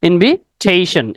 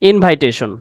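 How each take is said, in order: First: The second syllable has a short 'i' vowel. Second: The second syllable has a long 'eye' vowel. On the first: The speaker calls it right. "Correct pronunciation হবে ইনভিটেশন" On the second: The speaker calls it wrong. "আসলে শব্দটা ইনভাইটেশন না"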